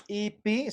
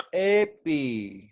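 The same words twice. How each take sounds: First: Ipi with a first I, as spelt; written pronunciation. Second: Epi starting on a drawn-out E; first I lowered to E. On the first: Teacher showing students what not to say, ipi with I. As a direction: say "ipi" starting on an I sound. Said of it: "yo no voy a decir". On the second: Teacher modelling for students how to pronounce it, epi with E. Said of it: "sino voy a decir epi". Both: Shown as a demonstration.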